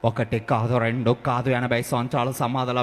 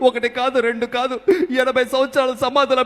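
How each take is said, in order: First: It is spoken in an imitated film hero's voice. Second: It is spoken in an imitated comedian's voice. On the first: "Vijay Devarakonda గారు వేసుంటే ఎలా ఉండేది" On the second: "ఈ రకంగా సప్తగిరి గారి voice"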